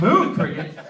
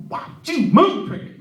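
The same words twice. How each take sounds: First: Mildly incredulous, raised repeat; baffled echo. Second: High, loud tic-like outburst; involuntary blurt. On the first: Puzzled new coworker reacting to the blurt, baffled echo. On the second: Coworker with Tourette's asking Chris for a stack, sudden loud blurt. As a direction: blurt it out mid-sentence like a tic. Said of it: "he just blurted it out". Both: Acted.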